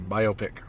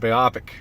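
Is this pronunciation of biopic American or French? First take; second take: American; French. First: The word is pronounced the American way. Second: The word is pronounced the French way. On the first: This is how an American speaker says it. "If you're American, you say biopic" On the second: This is how a French speaker says it. "if you're French, you say biopic"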